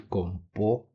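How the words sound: The middle consonant is a 'p' sound.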